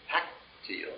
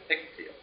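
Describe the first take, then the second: First: The first syllable has an 'a' vowel. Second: The first syllable has an 'i' vowel. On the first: This is the older form. "used to be hactil" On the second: This is the later form. "instead of hictil"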